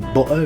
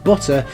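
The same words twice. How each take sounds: First: The middle T is replaced by a glottal stop. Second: The middle T is pronounced as a clear T. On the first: "how Cockneys say butter" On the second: "instead of butter"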